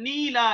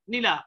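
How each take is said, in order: First: নীলা-র ঈ অনেকটা টেনে বলা; নীলা শব্দে প্রথম স্বর লম্বা; ভুল দীর্ঘ ই. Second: Said in the usual way. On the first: Shown as a demonstration. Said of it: "এরকম বলছি না". (নীলা-য় ঈ দীর্ঘ করে ধীরে) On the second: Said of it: "অর্থাৎ কি রস্ব উচ্চারণ করছি".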